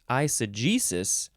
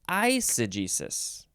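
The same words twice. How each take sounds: First: The stress is on the 'ge' syllable. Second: The stress is on the first syllable. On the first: "you're either emphasizing the J, the G" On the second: "or you're emphasizing the first syllable"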